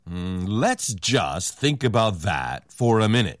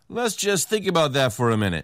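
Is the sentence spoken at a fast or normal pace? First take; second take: normal; fast. First: The sentence is spoken at a normal pace. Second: The sentence is spoken fast with linked words.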